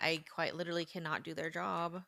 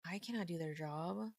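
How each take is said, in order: First: Said in the usual way. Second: Cannot pressed hard with a rising tune; stress on cannot. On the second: Real, not acted. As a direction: lean on cannot to insist.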